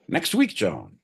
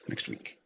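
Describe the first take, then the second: First: Said in the usual way. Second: Breathy aside to himself; muttered repeat. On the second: Acted. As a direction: drop to a near whisper on the repeat. Repeats punchline under breath.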